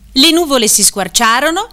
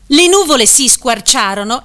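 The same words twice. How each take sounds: First: The intonation is exaggerated like a teacher explaining. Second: The intonation sounds like a news reader. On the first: "Esempio di intonazione didascalica ortologicamente inadeguata" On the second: "Esempio di intonazione giornalistica antididascalica ortologicamente inadeguata"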